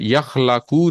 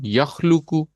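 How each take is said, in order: First: The vowel after the l is a. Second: The vowel after the l is u. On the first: The speaker calls it wrong. "यखलाकू नहीं होगा" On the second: The speaker calls it right. "बल्कि ये होगा यखलुकू"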